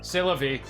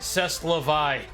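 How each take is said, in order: First: It is said with a French-like pronunciation. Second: It is said with an anglicized spelling pronunciation.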